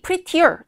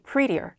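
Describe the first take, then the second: First: The middle t is said crisply and clearly. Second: The middle t is softened and linked smoothly. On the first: "도 맞지만" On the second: "이런 연음의 발음도 있습니다"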